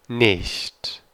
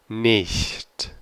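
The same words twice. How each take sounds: Both takes have the same delivery.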